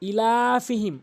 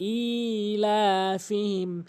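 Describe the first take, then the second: First: The opening vowel is short, not drawn out. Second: The opening vowel is drawn out long. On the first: The speaker calls it wrong. "হামজাকে এখানে টেনে পড়ে না" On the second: The speaker calls it right. "হামজাকে অবশ্যই এক আলিফ টেনে পড়তে হবে"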